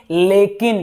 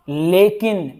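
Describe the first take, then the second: No difference in how they are said.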